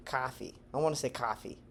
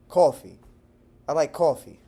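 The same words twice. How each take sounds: First: "coffee" with an open ah vowel, softer; taught Texan pronunciation. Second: "coffee" with a rounded aw vowel; New Yorker pronunciation. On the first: Texan showing his taught version, "coffee" as "cah-fee". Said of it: "the way that I've been taught to say it". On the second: Texan borrowing a New York word, "coffee" as "caw-fee". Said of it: "something that a New Yorker says". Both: Shown as a demonstration.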